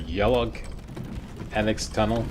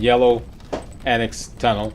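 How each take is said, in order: First: The first word ends with an 'ug' sound. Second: The first word ends with an 'oh' sound. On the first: The speaker calls it wrong. "They pronounce it Yellug" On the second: The speaker calls it right. "I'm going to go with yellow"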